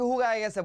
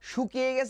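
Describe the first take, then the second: First: The first word begins with an 'h' sound. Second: The first word begins with an 'sh' sound. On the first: This is the Old Dhaka regional form. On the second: This is the standard form.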